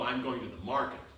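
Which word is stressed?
market. The word market carries the main stress. It denies the claim of just walking around. "you're just going out walking around. No"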